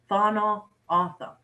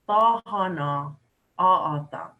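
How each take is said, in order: First: Said in a shorter, more relaxed everyday pronunciation. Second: Said in a fuller, more carefully articulated pronunciation. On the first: This is the form most people commonly use. "the most common pronunciation" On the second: This is the form heard on the radio or in formal settings. "the formal pronunciation of Thana Otham is"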